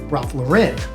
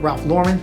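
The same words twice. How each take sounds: First: The name is pronounced in a fancier, elevated way. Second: The name is pronounced in a plain, ordinary way. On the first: The name is made to sound more upscale than it is. "trying to make it sound more than what it is" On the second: This is the usual way of saying the name. "Instead of"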